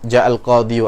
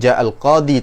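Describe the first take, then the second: First: The last word ends with an added 'yu' sound. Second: The last word ends in a plain 'i' sound. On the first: The speaker calls it wrong. "tapi berat" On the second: The speaker calls it right. "tanpa dhammah"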